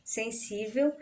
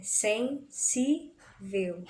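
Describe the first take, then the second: First: Said in the usual way. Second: Sen-sí-vel, very slow with gaps; separação silábica. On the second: Shown as a demonstration. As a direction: break sensível into three separate syllables. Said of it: "na separação silábica". (sensível bem devagar, em três sílabas separadas)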